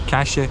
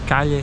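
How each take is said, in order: First: It is said with an Argentine pronunciation. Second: It is said with a non-Argentine pronunciation.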